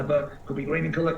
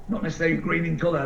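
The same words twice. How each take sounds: First: Could be green in colour, weight on colour; stress on colour. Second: Not hit first and firmest; stress on not. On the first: Explaining to the team, stress on colour. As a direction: land the contrast on colour. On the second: Explaining to the team, stress on not. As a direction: lean on the word not, then rush on. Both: Shown as a demonstration.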